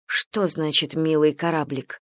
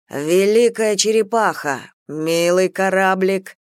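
First: Said in the usual way. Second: Slow, drawn-out marvelling; awed exclamation. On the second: A narrator's reading. Prisoner sighting a huge warship, awed. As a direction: stretch the words out in admiration.

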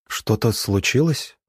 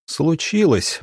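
First: Said in the usual way. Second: Higher, indignant exclamation; indignant near-shout. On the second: A narrator's reading. Doctor answering the teacher's question, indignant. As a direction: throw the word back, pitch jumping. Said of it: "почти крикнул он возмущённый".

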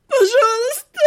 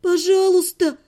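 First: High, wailing sob; bawling. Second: Higher, pleading voice; tearful plea. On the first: Captive heroine breaking down before her killer, bawling. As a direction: burst into tears on the plea. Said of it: "разревелась я". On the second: Captive heroine begging her killer, tearful plea. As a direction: beg with rising tears. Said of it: "У меня потекли слёзы". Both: A narrator's reading.

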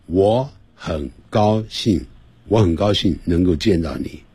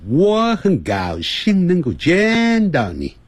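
First: Each Chinese character given equal length; 我很高兴能够见到你 evenly, nothing stretched; even syllable timing. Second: 我很高兴能够见到你 slow and high, vowels stretched long; 我很高兴能够见到你 with long, swooping, elongated words; drawn-out English timing. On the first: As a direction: say 我很高兴 in short, evenly timed syllables. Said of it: "通常是同样的时间". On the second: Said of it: "它都拉得很长". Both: Shown as a demonstration.

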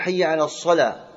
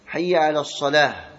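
First: الصلاة said as السلا with no ha at the end; final ha dropped. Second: الصلاة ending on a clear ha; final ha sounded. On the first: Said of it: "بعضهم لا ينطقها". (حي على الصلا بإسقاط الهاء) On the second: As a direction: pronounce the ha at the end of الصلاة. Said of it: "الهاء". (حي على الصلاة بنطق الهاء) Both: Shown as a demonstration.

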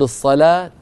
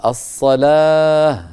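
First: Raised الصلاة said "as-salaata"; joined t ending. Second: Long-drawn الصلاة falling to h; pausal h ending. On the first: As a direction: sound the final -ta of الصلاة. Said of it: "في الوصل نقول". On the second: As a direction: stop on الصلاة as "as-salaah". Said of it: "فإن وقفنا نقول". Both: Shown as a demonstration.

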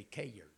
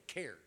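First: "cared" stretched into two syllables, kay-urd; "cared" in a Southern drawl, two syllables. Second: "cared" said as one short syllable; clipped one-beat "cared"; "cared" the Northern way, one syllable; plain. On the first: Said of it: "Down there, we say cared". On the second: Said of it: "y'all say cared". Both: Shown as a demonstration.

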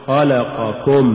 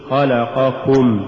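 First: Slow خلقكم broken as خلق + كم; wrongly split word. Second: Slow خلقكم as one unbroken word; correctly joined word. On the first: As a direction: set كم apart at the end of خلقكم. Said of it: "ولا تقل". (فصل «كم» في «خلقكم») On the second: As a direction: keep كم attached inside خلقكم, unhurried. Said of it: "قل". (نطق «خلقكم» كلمة واحدة ببطء) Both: Shown as a demonstration.

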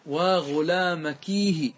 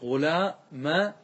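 First: "وغلامكيه" slow and joined, long kee then hi; lamenting ya ending. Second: "وغلامكاه" slow, in pieces, with long kaa then hu; lamenting alif ending. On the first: Teacher showing lament addressed to a woman, long ya ending on "وغلامكيه". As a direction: draw out the ee in "وغلامكيه". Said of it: "الآن تأتي بالندبة". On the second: Teacher asking why kaf took fatha, stretched alif ending on "وغلامكاه". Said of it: "لماذا صارت كا". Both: Shown as a demonstration.

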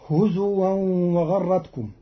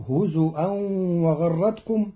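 First: Said in the usual way. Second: هزؤا with a glottal stop, "huzu'an"; Qalun reading. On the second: Shown as a demonstration. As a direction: hamza instead of w in هزؤا. (هزؤا بالهمز بدل الواو) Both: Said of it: "بالهمز بدل الواو".

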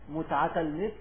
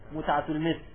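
Both takes have the same delivery.

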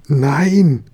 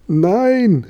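First: Higher, louder drawn-out protest; crying out. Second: Very high, drawn-out exclamation; high cry. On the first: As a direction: call out a dismayed refusal. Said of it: "rief der Papa". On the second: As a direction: cry out in a much higher boy's voice. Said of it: "rief der Josef". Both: A narrator's reading.

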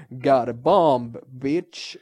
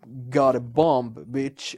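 First: Slow, louder hammed-up hero shout with a put-on voice; yelled action one-liner. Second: Action hero one-liner. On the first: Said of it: "man ska ju aldrig skrika". (överspelat, högt actionhjälteskrik) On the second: Retold or imitated. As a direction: deliver it like a cool movie hero. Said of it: "alla jävla actionfilmer när man bara". (långsam, cool actionhjälterepliken)

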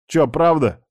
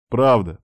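First: Higher-pitched worried question on правда; mildly dismayed. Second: Said in the usual way. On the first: A narrator's reading. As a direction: ask правда as if caught out, dismayed. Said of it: "расстроился я".

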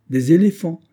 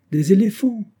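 First: Higher, louder relishing echo; savoring echo. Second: High, louder excited retort; eager retort. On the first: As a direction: repeat it as if tasting the idea. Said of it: "Voilà qui serait superbe et majestueux". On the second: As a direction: fire it back with glee. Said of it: "riposta le capitaine Hod". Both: A narrator's reading.

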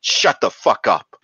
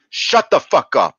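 First: Louder, higher snapped yell; mock angry yell. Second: Much higher and louder, full-force yell; mock furious shout. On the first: Mimicking a teacher shouting down a gifted kid, mock angry yell. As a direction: bark it at the kid like a fed-up teacher. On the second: Mimicking a teacher shouting down a gifted kid, even louder mock yell. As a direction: yell it even harder the second time.

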